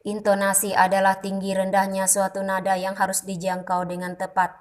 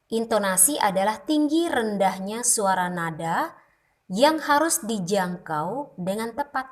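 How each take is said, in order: First: "Intonasi adalah tinggi rendahnya" on one level pitch, no rises or falls; flat monotone. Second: Said in the usual way. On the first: Shown as a demonstration. Teacher showing speech without intonation, deliberately monotone. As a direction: drone it like a robot. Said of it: "seperti itu bunyi ... tanpa intonasi, datar saja". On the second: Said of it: "Contoh kata atau kalimat".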